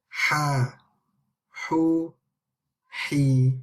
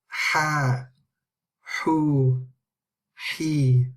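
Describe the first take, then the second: The two takes are said the same way.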